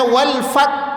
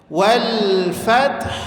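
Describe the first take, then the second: First: The final h sound is dropped. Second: The final h sound is clearly kept. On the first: The speaker calls it wrong. "wal fat hilang haknya, itu tidak boleh" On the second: The speaker calls it right. "gabungkan dia menjadi wal fath"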